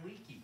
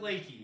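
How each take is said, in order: First: The first vowel sounds like 'lee'. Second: The first vowel sounds like 'lay'. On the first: The speaker calls it wrong. "Never ever say, oh, you live in Lakey. Not good" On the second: The speaker calls it right. "You want to pronounce it Lakey"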